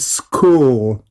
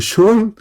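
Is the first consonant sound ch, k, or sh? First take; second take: k; sh. First: It is said with a k sound. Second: It is said with an sh sound. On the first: The speaker calls it right. "sino mira, school ... este es k" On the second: The speaker calls it wrong. "o shol"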